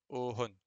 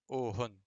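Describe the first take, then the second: The two takes are said the same way.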